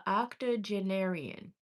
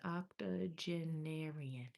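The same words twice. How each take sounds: First: Octogenarian sounded out slowly, ok-toh-jeh-NAIR-ee-an; slow first try at octogenarian, stress on NAIR; careful pronunciation. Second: Octogenarian drawn out very slowly and softly, each syllable separate, ok-toh-jeh-NAIR-ee-an; half-to-herself second take of octogenarian, very slow; slower, softer retry. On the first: Reader on live stream testing a hard word, slow and careful. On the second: Reader checking her pronunciation for viewers, soft and very slow. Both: Shown as a demonstration. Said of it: "I'm saying that correctly?".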